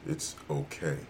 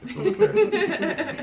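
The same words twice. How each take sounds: First: Low, soft, seductive murmur; sultry voice. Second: Breaking into a laugh mid-line. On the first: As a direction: purr it like a perfume ad. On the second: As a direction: crack up while saying it. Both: Acted. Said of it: "deep, sultry voice telling you that".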